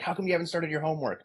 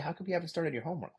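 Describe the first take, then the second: First: It sounds demanding and commanding, like an order. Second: It sounds curious and gentle, like a real question. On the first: It is an order to start, not a question. The speaker calls it wrong. "I'm not really asking that question. I'm really ordering them to start their homework" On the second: It is a real question about what is going on. The speaker calls it right. "That's a different question"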